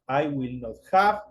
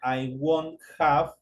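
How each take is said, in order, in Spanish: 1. Will not se dice como dos palabras completas. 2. Will not se contrae en una sola palabra corta. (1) "es un poquito más larga la, la, la pronunciación" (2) "La forma más corta sería"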